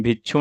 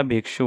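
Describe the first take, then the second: First: भिक्षु said as "bhichhu"; wrong consonant cluster. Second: Said in the usual way. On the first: Shown as a demonstration. Teacher showing a common mistake, भिक्षु as "bhichhu". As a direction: turn the "kshu" of भिक्षु into "chhu". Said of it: "नहीं होता". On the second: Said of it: "भिक्षु होता है".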